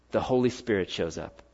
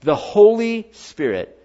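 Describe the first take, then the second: First: Softer and lower, the answer dropped quietly; quiet reveal. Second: The Holy Spirit, slow, higher and louder with weight on Holy; proclaimed. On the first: Preacher answers his own question, softly. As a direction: let the answer fall softly. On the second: Preacher proclaims the answer to the congregation, slow and emphatic. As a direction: lift The Holy Spirit up, slowly and loudly, stressing Holy. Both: Real, not acted.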